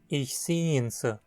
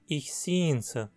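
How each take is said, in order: First: The pronoun is reduced to a weak syllable. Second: The same.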